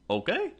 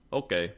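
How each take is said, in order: First: "Okay?" with a rising question tune; "Okay?" asked, pitch lifting at the end. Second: "Okay." with a falling, final tune; "Okay." said flat and closed as an answer; settled okay. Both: Shown as a demonstration. Asks then answers herself.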